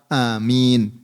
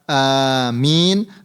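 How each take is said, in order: First: The first vowel is short, nothing lengthened. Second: The first vowel is drawn out long. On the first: "atau bisa membacanya dengan lafaz amin" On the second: "dengan lafaz hamzahnya ini dipanjangkan"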